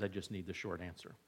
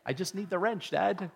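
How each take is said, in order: First: Much softer, fast and low; quiet quick request. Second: Put-on a touch of a bored kid, leaning on wrench; mock son, exasperated. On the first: Retold or imitated. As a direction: toss it off quietly as the son. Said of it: "I'm thankful when John says". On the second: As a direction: sigh it out as the son wanting just the tool. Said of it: "when John says".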